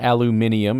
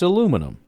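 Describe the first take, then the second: First: It is said the British way, with five syllables. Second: It is said the American way, with four syllables. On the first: The speaker calls it wrong. "it's not aluminium" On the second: The speaker calls it right. "it's it's aluminum, right?"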